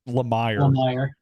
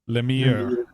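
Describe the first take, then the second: First: The name is pronounced the English way. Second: The name is pronounced the French way. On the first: "he's from out west, so you got to say it" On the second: "If you use the French pronunciation"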